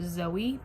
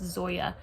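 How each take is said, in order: First: The name ends with an 'ee' sound. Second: The name ends with a 'ya' sound. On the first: The speaker calls it wrong. "I said Zoe because I I just thought maybe the J was silent" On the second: The speaker calls it right. "I'm pretty sure it's Zoya"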